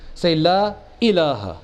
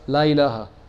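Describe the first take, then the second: First: A sudden glottal catch comes before 'ilaha'. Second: The words run together without a glottal catch. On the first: The speaker calls it right. "the hamza. That's what you call tahqiqul hamza" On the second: The speaker calls it wrong. "So don't say la ilaha"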